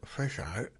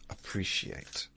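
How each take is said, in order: First: The word is mumbled, with sounds slurred together. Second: The word is clearly articulated, every syllable distinct. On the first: The speaker calls it wrong. "That's a mumble" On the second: The speaker calls it right.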